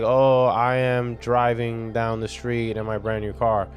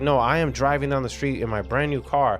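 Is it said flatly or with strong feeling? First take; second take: flatly; strong feeling. First: It is said flatly, without feeling. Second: It is said with strong, intense feeling.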